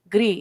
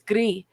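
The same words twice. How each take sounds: First: The word is said with an English pronunciation. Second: The word is said with a French pronunciation. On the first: The speaker calls it wrong. "It's not gris" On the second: The speaker calls it right. "French is one of our official languages, and gray is gris here"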